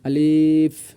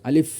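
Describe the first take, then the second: First: The vowel is drawn out long. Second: The vowel is short, ending with released breath. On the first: The speaker calls it wrong. "এভাবে টান দেয়" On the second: The speaker calls it right. "বাতাস বের করতে হবে"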